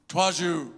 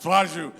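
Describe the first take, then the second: First: Garbled thank you through a mouthful of candy; mouth full of chocolate. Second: Louder garbled thank you through chocolate; mouth full of chocolate. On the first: Pastor imitating boy with a stuffed mouth, garbled. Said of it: "he looks up and he goes". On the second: Pastor repeating the boy's chocolate-muffled thanks, louder. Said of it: "It's just chocolate everywhere". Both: Retold or imitated.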